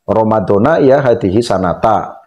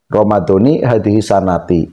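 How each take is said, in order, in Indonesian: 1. Kata-kata itu berakhir dengan vokal 'a'. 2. Kata-kata itu berakhir dengan vokal 'i'. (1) "kalau mau di fathah, hadhihi sanatinya itu diganti jadi fathah" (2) "jadi Ramadan itu dibaca kasroh"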